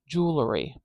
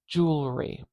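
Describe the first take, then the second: First: A short extra vowel splits the middle sounds. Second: No extra vowel is added in the middle. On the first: "we'll just split them up with a little schwa" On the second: "It's har actually hard for me to say it without that little schwa in there"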